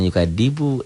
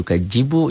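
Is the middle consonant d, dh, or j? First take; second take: d; j. First: The middle consonant is a plain d sound. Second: The middle consonant is a j sound. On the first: "jangan yukadibu" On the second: "jangan yukajibu"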